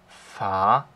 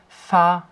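First: The pitch dips down, then rises. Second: The pitch stays high and level.

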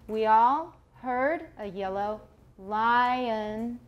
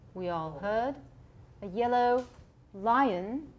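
First: It is said in an American accent. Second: It is said in a British accent.

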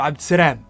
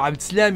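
First: The final syllable is said with an R sound. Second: The final syllable is said with an L sound. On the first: "مثلا يقلبوا في اللام راء" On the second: "لما بيقولوا عبد السلام"

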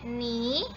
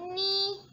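First: The pitch rises from mid to high. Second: The pitch stays high and level. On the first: "Nada kedua ini bacanya ni" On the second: "Nada pertama bacanya ni"

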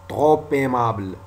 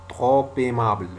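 Both takes have the same delivery.

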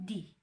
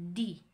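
First: The word ends with an 'ee' vowel. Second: The same.

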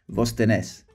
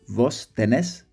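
The two takes are said the same way.

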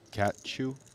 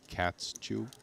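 First: No s sound comes before 'chew'. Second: An s sound comes before 'chew'.

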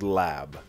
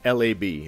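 First: It is said as the single word lab. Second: It is said as three separate letters. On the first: The speaker calls it wrong. "it's not actually called lab" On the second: The speaker calls it right. "It's actually pronounced L.A.B"

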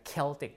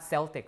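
First: The word begins with a hard K sound. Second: The word begins with a soft S sound. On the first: The speaker calls it right. "this is K" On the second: The speaker calls it wrong. "Not Celtic"

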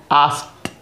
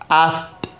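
No difference in how they are said.

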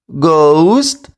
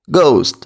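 First: The word is said slowly. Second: The word is said quickly. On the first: "Тепер скажемо повільно" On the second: "Тепер швидко"

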